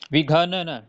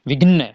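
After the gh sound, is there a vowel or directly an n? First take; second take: vowel; directly n. First: A vowel is sounded between gh and n. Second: The gh runs straight into n, no vowel. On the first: The speaker calls it wrong. "ऐसे नहीं पढ़ेंगे आप। ... घ यानी इसके अंदर सुर कह रहे हैं आप" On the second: The speaker calls it right. "विघ्न, ऐसे।"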